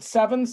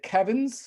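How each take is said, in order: First: The word begins with an S sound. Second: The word begins with a K sound. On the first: The speaker calls it right. "We we pronounce it sevens" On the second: The speaker calls it wrong. "It's entirely possible to pronounce it Kevins"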